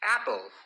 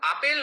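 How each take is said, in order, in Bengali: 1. প্রথম স্বরধ্বনিটি চ্যাপ্টা, 'cat'-এর মতো। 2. প্রথম স্বরধ্বনিটি খোলা, 'father'-এর মতো। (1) "অ্যা সাউন্ডটা কিন্তু এখানে আসছে" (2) "আপেল নয় কিন্তু"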